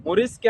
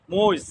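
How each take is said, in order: First: Said in the usual way. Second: মইজ as one syllable with the r dropped; Gazipur dialect. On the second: Shown as a demonstration. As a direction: say মইজ like "moiz", no r. (গাজীপুরের উচ্চারণে মইজ, র ছাড়া) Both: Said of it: "গাজীপুরের আঞ্চলিক ভাষায়".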